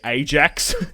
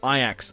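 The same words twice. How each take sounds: First: The name is said with an Australian pronunciation. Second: The name is said with the local pronunciation. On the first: The speaker calls it wrong. "I'd probably say Ajax as an Australian" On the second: The speaker calls it right. "but obviously it's Ajax"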